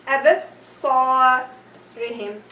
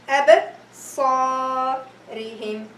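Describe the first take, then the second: Both takes have the same delivery.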